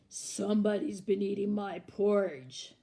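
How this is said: It is said in Papa Bear's big, deep voice.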